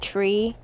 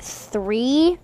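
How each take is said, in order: First: The word begins with a plain 't' sound. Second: The word begins with a 'th' sound. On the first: This is how the speaker says it. "but I pronounce it tree" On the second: This is how other people say it. "People apparently pronounce it three"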